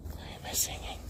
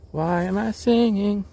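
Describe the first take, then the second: First: "Why am I singing?" in a breathy unvoiced whisper. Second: Said in the usual way. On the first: Shown as a demonstration.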